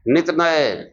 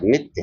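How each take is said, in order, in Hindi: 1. शब्द दो अलग हिस्सों में बंटा है। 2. शब्द एक कसे हुए व्यंजन-समूह के साथ बोला जाता है। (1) "गांव देहात में कहते हैं नित नय" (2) "नित्य होता है"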